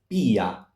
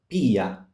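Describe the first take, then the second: First: The i is a separate, stressed vowel. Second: The i is a separate, stressed vowel.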